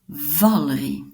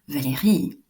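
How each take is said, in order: First: The stress falls near the start of the name. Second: The stress falls on the last syllable of the name. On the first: This is how a Flemish speaker says it. The speaker calls it wrong. "Un flamand dira Valerie" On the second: This is how a French speaker says it. The speaker calls it right. "l'accent à l'arrière en français"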